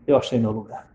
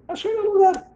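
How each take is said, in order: First: Said in the usual way. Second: High-pitched exclamation. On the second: Retold or imitated. Wedding guest discovering the phone booth, high-pitched exclamation. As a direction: squeak it far higher. Excited repeat of finding refuge.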